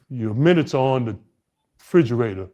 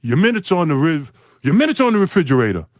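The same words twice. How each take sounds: First: Said in the usual way. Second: Higher, louder curt coach voice; mocking a gruff coach, louder and higher; Larry Bird's curt reply. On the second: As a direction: bark it like a gruff coach brushing off a rookie. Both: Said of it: "Larry Bird looks at me and goes".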